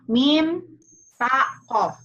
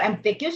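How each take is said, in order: First: The letters are named with Arabic letter names. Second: The letters are named with English letter names. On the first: The speaker calls it right. "Mim, ya" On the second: The speaker calls it wrong. "kalau M T Q sih lafal Inggris"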